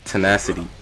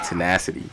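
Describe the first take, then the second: First: It is said in the speaker's usual accent. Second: It is said with an American accent.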